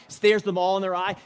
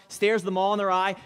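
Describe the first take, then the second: No difference in how they are said.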